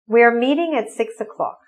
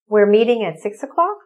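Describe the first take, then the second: First: It is said with statement intonation. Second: It is said with question intonation. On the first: It states a fact. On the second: It asks for clarification.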